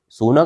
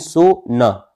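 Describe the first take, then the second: First: It is said as one word without a pause. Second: There is a short pause between so and na.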